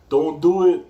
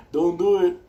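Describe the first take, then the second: First: Loud, higher shouted warning. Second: Loud, higher shouted warning; warning shout again. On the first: Shouting at people waiting for shots, a loud warning. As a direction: call it out loud to the line. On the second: Shouting at people in the vaccine line, a loud warning. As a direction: yell it across to them. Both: Retold or imitated. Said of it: "I'm like that".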